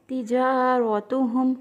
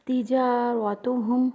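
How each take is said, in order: Both takes have the same delivery.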